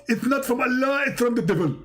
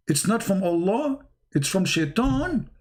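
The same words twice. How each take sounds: First: High, insistent preacher-angel declaration; mock scolding verdict, high then falling; Zakir Naik as Jibreel. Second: Lightly acted disbelief, rising question; incredulous Muhammad. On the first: Angel corrects Muhammad, hammed-up high preacher impression. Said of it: "You look like Zakir Naik". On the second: Muhammad learns the verse's source, mock-incredulous question. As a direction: echo it back as a mock-shocked question. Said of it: "You must be kidding me".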